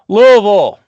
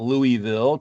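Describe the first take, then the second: First: The word is said with two syllables. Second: The word is said with more than two syllables. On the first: The speaker calls it right. "said correctly" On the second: The speaker calls it wrong. "not Louisville. Please don't say Louisville"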